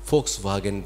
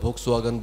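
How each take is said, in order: First: The name begins with an F sound. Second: The name begins with a V sound. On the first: The speaker calls it right. "ভি এর উচ্চারণ হচ্ছে ফ" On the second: The speaker calls it wrong. "আমি চিরকাল ভক্স ওয়াগন ভক্স ওয়াগন বলে এসেছি"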